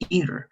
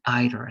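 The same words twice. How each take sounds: First: It is said with the standard American pronunciation. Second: It is said with the English regional pronunciation. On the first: "we're going to work with the standard one" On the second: "in England, they call it either as well"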